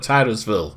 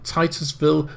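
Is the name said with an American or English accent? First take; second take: American; English. First: It is said with an American pronunciation. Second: It is said with an English pronunciation.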